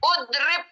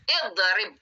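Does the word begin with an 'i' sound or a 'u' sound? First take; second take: u; i. First: The word begins with a 'u' vowel. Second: The word begins with an 'i' vowel. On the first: The speaker calls it wrong. "nggak boleh udrib. Salah" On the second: The speaker calls it right. "Yang betul idrib"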